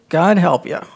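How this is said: It is said sarcastically.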